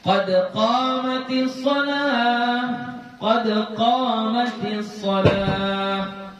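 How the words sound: It stops after the first phrase's final word. "Pertama diwakafkan"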